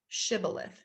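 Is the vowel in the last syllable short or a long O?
short. It is said with a plain, short final vowel.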